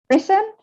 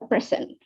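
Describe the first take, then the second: First: The stress is on the second syllable. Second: The stress is on the first syllable. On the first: It is the verb, meaning to give formally. "this one is uh, a verb, present" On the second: It is the noun, meaning a gift. "a present, a present"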